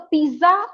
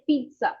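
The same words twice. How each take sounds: First: The middle consonant is a plain z sound. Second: The middle consonant is a ts sound. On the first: The speaker calls it wrong. "पिज्जा ना कह के" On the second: The speaker calls it right. "उसको बोलेंगे पिज्जा... छोटा सा टी sound भी लेकर आइए"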